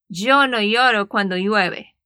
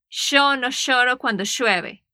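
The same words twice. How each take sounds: First: It has a Spanish accent from Spain. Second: It has an Argentine accent, ll sounding like sh.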